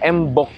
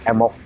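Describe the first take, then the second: First: The b sound is clearly pronounced. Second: The b sound is dropped. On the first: The speaker calls it wrong. "tidak embok" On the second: The speaker calls it right. "B itu luluh, sedikit luluh"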